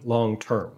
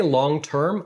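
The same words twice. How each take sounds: First: "long term" drawn out slowly for emphasis; weighty, slow "long term"; emphatic stress. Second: Said in the usual way. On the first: Real, not acted. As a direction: stretch "long term" to show you really mean it. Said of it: "when I say long term". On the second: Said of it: "I mean long term".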